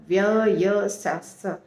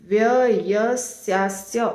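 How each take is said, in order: Both takes have the same delivery.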